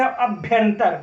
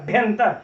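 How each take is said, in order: First: Said in the usual way. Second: "भ्यंतर" starting straight on the bh, with no a before it; opening vowel swallowed. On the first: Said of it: "जब किसी विशेष ध्वनि पर हम विशेष जोर देते". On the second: Shown as a demonstration. Teacher showing how stress suppresses a sound, opening vowel swallowed. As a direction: drop the initial a and lean on bhyan in "भ्यंतर". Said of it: "इसके आगे अ दब गया".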